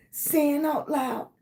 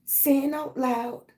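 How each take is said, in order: Both takes have the same delivery.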